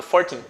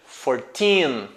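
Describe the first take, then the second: First: Put-on fourteen said quickly with a short "teen"; hurried, clipped "fourteen"; rushed. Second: Put-on fourteen with a long, stressed "teen"; "fourteen" clearly drawn out on teen. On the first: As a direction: rattle off "fourteen" so it sounds like forty. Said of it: "falando rápido". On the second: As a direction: say "fourteen" slowly, holding the last syllable. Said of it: "o que vai fazer com que você entenda que é quatorze". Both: Shown as a demonstration.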